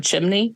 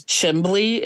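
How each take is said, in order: First: Said in the usual way. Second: "Chimbley" with a b, CHIM-blee; Chimbley for chimney. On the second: Shown as a demonstration. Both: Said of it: "instead of chimney".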